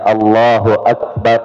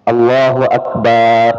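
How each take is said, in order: First: The vowel after b is said short. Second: The vowel after b is drawn out long. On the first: The speaker calls it right. "yang seharusnya" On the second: The speaker calls it wrong. "memanjangkan ba"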